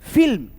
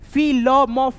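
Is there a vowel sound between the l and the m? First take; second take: no; yes. First: The l joins the m with no vowel between. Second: Each letter is said apart with a vowel. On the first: The speaker calls it right. "इसमें अ का ध्वनि सुनाई नहीं दे" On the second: The speaker calls it wrong. "ऐसे करके पढ़ती हो तो आपका उच्चारण यहाँ पे गलत होता है"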